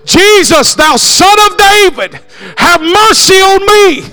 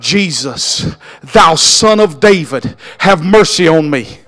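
First: The voice is raised to a higher volume. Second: The voice is at a lower volume.

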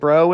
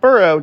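First: The ending is said as bro. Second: The ending is said as burrow. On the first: The speaker calls it right. "Make sure to pronounce it bro" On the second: The speaker calls it wrong. "and not burrow"

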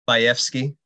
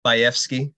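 First: The name is said with a Polish pronunciation. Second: The name is said with a Polish pronunciation.

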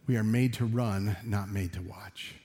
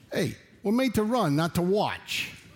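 First: It is said in the speaker's natural voice. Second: It is said in a put-on, different voice.

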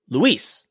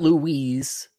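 First: The name is said like the Spanish male name. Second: The name is said like the French female name. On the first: The name is a male name. The speaker calls it right. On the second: The name is a female name. The speaker calls it wrong. "Not Louise. ... not French female name"

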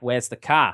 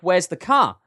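First: It is said in a New Zealand accent. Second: It is said in an English accent.

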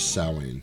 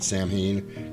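First: The word is said the older, traditional way. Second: The word is said the common, everyday way. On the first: The speaker calls it right. "the traditional pronunciation of it is Samhain" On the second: The speaker calls it wrong. "Everybody calls it Samhain because that's how it's spelled"

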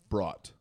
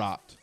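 First: The vowel sounds like the vowel in 'caught'. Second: The vowel sounds like the vowel in 'cat'. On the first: The speaker calls it wrong. "You said brought" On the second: The speaker calls it right.

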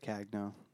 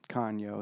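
First: The surname is said in an Americanized way. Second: The surname is said in the Italian way. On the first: This is how most people say the name. The speaker calls it wrong. "They say Cagno" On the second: This is the original form of the name. The speaker calls it right. "Kanyo is what it should be"

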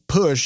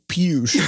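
First: The vowel is a plain oo sound. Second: The vowel starts with a y glide, yoo. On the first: The speaker calls it right. "if you had the word push" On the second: The speaker calls it wrong. "you wouldn't say pewsh"

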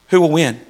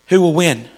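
No difference in how they are said.

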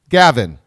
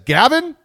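First: It is said as a flat statement. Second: It is said as an excited exclamation.

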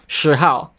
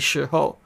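First: The second syllable has a Cantonese-like 'ow' vowel. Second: The second syllable has a Mandarin-like 'oh' vowel. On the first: The speaker calls it wrong. "kind of have that ow sound in Cantonese" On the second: The speaker calls it right. "it should be shi hou"

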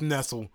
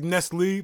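First: The word ends with an 'ul' sound. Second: The word ends with an 'ee' sound. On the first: The speaker calls it right. "I say it's Nestle" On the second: The speaker calls it wrong. "They say it's Nestle, but where's the extra E on the end"

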